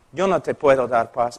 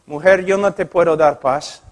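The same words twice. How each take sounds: First: Quiet firm pastor. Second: Said in the usual way. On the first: Retold or imitated. Pastor repeating the refusal to the woman, low and soft. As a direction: let the refusal sink in quietly.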